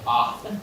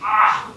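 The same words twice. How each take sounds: First: It sounds like a sigh of relief. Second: It sounds like a groan of pain.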